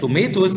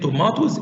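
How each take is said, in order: First: The word is said in an American accent. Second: The word is said in a British accent. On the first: "the tomatoes is the American accent" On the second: "tomatoes is the pronunciation of the British accent"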